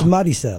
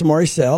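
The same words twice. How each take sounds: First: The name is said in a Spanish way. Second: The name is said in a Southern American way. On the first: "if you're speaking a Spanish speaker, it's Maricel" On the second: "I would say in the South, it's Maricel"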